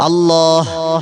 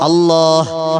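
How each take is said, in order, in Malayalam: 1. ഈ വാക്ക് വ്യക്തമായി കേൾക്കുന്ന 'ഹ' (h) ശബ്ദത്തിലാണ് അവസാനിക്കുന്നത്. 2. ഈ വാക്ക് വ്യക്തമായി കേൾക്കുന്ന 'ഹ' (h) ശബ്ദത്തിലാണ് അവസാനിക്കുന്നത്.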